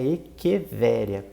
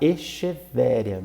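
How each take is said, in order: First: The 'ch' is pronounced as a K sound. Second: The 'ch' is not pronounced as a K sound. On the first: The speaker calls it right. "o correto é Equevéria, porque C H tem som de K" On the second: The speaker calls it wrong. "muita gente fala Echevéria"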